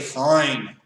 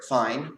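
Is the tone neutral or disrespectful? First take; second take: disrespectful; neutral. First: It is said in a disrespectful tone. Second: It is said in a neutral tone.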